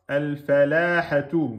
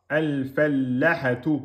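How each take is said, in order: First: The l is single but the vowel is long. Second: The l is doubled but the vowel is short. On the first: "Vous avez oublié la shidda" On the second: "Vous avez oublié la prolongation"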